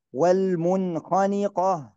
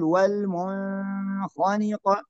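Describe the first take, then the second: First: Short clear ن in "والمنخنقة"; correct clear nun. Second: Long hum on the first ن of "والمنخنقة"; wrong held nun. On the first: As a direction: go straight from ن to خ in "والمنخنقة". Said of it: "لا نقول والمنخنقة". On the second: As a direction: stretch "mun" in "والمنخنقة" before خ. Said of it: "هذا خطأ". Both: Shown as a demonstration.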